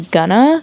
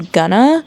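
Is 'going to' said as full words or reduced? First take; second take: reduced; reduced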